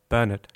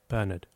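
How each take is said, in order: First: The word is said at medium volume. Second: The word is said softly.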